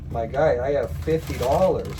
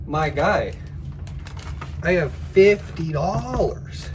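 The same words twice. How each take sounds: First: Louder, insisting on fifty; plain firm insistence; firm retort. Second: Higher and louder, slowed, exasperated; fed up and shouting at the scammer; exasperated yell. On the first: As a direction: tell him flatly what you have. First refusal to scammer. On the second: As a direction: say it like you've told him twice. Repeating the refusal, exasperated. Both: Retold or imitated.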